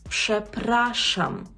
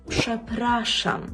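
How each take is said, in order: Both takes have the same delivery.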